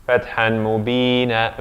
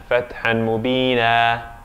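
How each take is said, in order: No difference in how they are said.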